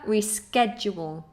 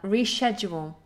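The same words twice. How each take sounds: First: The middle begins with a 'k' sound. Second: The middle begins with a 'sh' sound. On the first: "In America" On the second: "So British English, sh"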